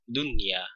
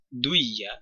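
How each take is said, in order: First: The n sound is pronounced clearly before y. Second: The n sound merges into the following y. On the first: The speaker calls it right. "membacanya dengan idhar" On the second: The speaker calls it wrong. "tidak dibaca semisal"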